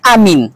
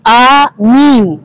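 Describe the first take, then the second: First: The vowels are said short. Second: The vowels are said long. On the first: It is a slogan for candidate pair number one. "hanya amin" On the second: May God accept our prayers. "A-nya panjang, min-nya panjang"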